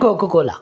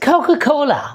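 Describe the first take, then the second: First: The k sound is unaspirated, without a puff. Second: The k sound is aspirated, with a puff. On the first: The speaker calls it wrong. "हम अक्सर पाकिस्तानी जो हैं, जो Asians हैं, हम कहते हैं" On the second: The speaker calls it right. "ख की आवाज़ जो है यहाँ पर दी जाएगी"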